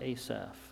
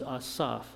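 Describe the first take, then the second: First: The first vowel is a hard A. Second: The first vowel is not a hard A. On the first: This is the more familiar pronunciation. The speaker calls it wrong. "not Asaph" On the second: This follows the Hebrew pronunciation. The speaker calls it right. "There is no hard A in Hebrew. Therefore, his name is Asaph"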